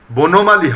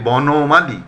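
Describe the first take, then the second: First: বনমালী said as "bonomali"; closed "bo" opening বনমালী; mistaken close o. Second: বনমালী said slowly as "bɔnomali"; drawn-out open "bɔ" opening বনমালী; correct open vowel. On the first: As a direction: say বনমালী with a rounded first o, "bo-no-ma-li". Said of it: "হবে না". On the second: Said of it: "হবে". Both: Shown as a demonstration.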